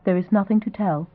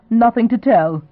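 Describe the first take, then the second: First: Casual, shrugging it off; nonchalant. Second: Higher, louder scoffing echo; snorting disbelief. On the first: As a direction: toss it off as if it's nothing. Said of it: "she said nonchalantly". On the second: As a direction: scoff at her answer in disbelief. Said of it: "George Saint John snorted". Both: A narrator's reading.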